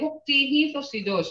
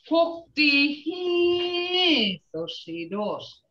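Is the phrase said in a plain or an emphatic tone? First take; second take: plain; emphatic. First: It is said in a plain, ordinary tone. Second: It is said with a heightened, emphatic tone. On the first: The girl is pretty. "You can say, that girl is pretty" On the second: The girl is gorgeous. "you're saying gorgeous, beautiful"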